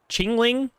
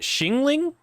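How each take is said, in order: First: The name begins with a ch sound. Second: The name begins with a sh sound. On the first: "I thought it was a C H sound, so then I said chingling" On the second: "sh instead of ch"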